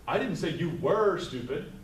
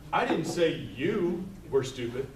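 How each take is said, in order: First: "were" stressed with a rising tune, light laugh. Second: Another emphasis on "I didn't say you were stupid"; shifted stress. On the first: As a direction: push "were" up in "you were stupid". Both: Shown as a demonstration. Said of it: "by moving what word I'm emphasizing".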